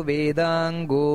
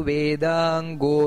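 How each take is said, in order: The two takes are said the same way.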